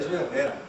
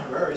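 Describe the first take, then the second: First: Herrera said the Spanish way; Spanish pronunciation. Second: Herrera said the English way; anglicized pronunciation. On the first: Teacher correcting his name, Spanish-sounding Herrera. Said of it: "I'm not Herrera, soy Herrera". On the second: Teacher showing the name to avoid, English-sounding Herrera. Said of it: "I'm not Herrera". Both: Shown as a demonstration.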